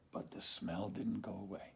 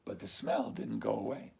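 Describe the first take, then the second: First: Much softer, whispered; hushed letdown. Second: Said in the usual way. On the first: A narrator's reading. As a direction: whisper the failure.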